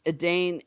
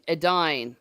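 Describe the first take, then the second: First: "Edane" rhyming with rain; second syllable of "Edane" like "Dane"; "Edane" as uh-DAYN. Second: "Edine" rhyming with fine; second syllable of "Edine" like "dine". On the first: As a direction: say "Edane" with a long ay. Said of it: "You said Edane?". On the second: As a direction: say "Edine" with a long i. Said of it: "as in fine dining". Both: Shown as a demonstration.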